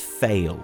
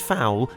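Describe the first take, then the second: First: The name rhymes with 'sail'. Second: The name rhymes with 'owl'. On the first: "the other is Fail" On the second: "One is Fowl"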